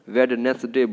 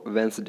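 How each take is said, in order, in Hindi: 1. बीच का 'd' बोला जाता है: 'wed-nes-day'। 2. बीच का 'd' साइलेंट है: 'wenz-day'। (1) "बहुत सारे लोग गलती करते हैं, वेडनेसडे बोल देते हैं" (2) "डी जो है आपका साइलेंट है"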